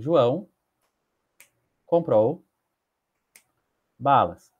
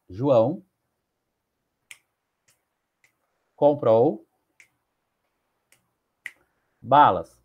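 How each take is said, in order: First: The sentence is said at moderate speed. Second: The sentence is drawn out very slowly. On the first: "Posso ler em cinco segundos" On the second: "posso ler ela em dez segundos"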